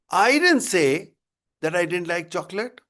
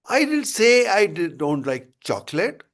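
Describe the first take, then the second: First: The stress falls on the first word, I. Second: The stress falls on the last word, chocolate. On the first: "if I say like this, ... that means I didn't say, somebody else must have said it" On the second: "the emphasis on chocolate"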